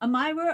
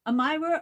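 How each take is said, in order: First: The middle vowel is a long I sound. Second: The same.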